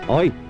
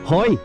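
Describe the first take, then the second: First: The word begins directly with a vowel. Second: The word begins with an audible H sound. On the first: The speaker calls it right. "it's just oi" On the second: The speaker calls it wrong. "I actually pronounce the H"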